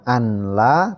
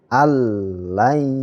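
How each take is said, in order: First: The n is sounded separately before the l. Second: The n merges fully into the l, unnasalized. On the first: The speaker calls it wrong. "Bukan an la" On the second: The speaker calls it right. "tapi alai, ya, tidak mendengung"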